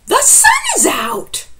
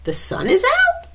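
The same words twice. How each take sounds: First: It is said with excitement, as an exclamation. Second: It is said as a question, rising.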